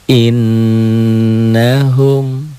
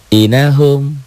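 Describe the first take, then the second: First: The n is doubled, nasalized and held long. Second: The n is short, single and not nasalized. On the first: The speaker calls it right. "balikin lagi" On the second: The speaker calls it wrong. "Kita hilangkan tasdid ini ya. Kalau dihilangkan tuh, tuh dihilangkan inahum"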